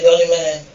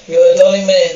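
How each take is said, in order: First: Said in the usual way. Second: Louder, beaming thanks to the father; hearty thanks. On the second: Acted. Irish brother thanking the father, loud and hearty. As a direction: call out the gratitude warmly.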